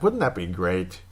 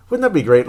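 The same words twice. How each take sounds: First: Said in the usual way. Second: Higher and louder, hitting that; emphatic wish. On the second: Real, not acted. Fan loudly wishes his own goalie played that well. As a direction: repeat it with real longing and punch.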